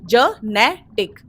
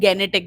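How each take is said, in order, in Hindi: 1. यह शब्द j की आवाज़ से शुरू होता है। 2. यह शब्द hard g की आवाज़ से शुरू होता है। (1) "करेक्ट प्रोनाउंसिएशन है जनेटिक" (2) "ना ही गेनेटिक बोलते"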